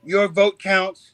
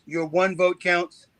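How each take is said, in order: First: Slow, with the stress on "vote" in "Your vote counts"; "Your vote counts" said slowly, leaning on "vote"; slogan, stress on vote. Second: Slow, with "one" stressed in "your one vote counts". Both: Retold or imitated. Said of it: "I hear us saying".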